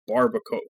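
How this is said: It is read fully like an English word. The speaker calls it wrong. "they read it as if it were an English word"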